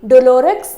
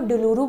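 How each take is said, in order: First: The word ends with a clear 'ks' sound. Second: The word ends in a vowel, with no 'ks'. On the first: The speaker calls it wrong. "टिक डोलोरेक्स नहीं बोलते इसको" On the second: The speaker calls it right. "डुलूरू बोलते हैं"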